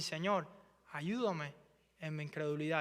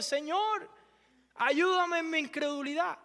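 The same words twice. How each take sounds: First: Softer, lower humble plea; quiet prayer. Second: Crying out. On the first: Believers praying softly to the Lord for help. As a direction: pray it under your breath. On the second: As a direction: let the plea burst out. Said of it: "como que gritó, se desahogó". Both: Acted.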